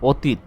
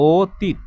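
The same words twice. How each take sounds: First: অতীত with an open o, the way we do not say it; wrong pronunciation. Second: অতীত with the first vowel closed toward o; right pronunciation. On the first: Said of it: "এভাবে আমরা উচ্চারণ করি না". (ভুল উচ্চারণে অতীত) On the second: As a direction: say অতীত with a rounded o start. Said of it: "আমরা উচ্চারণ করেছি কিভাবে?". (সঠিক সংবৃত উচ্চারণে অতীত) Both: Shown as a demonstration.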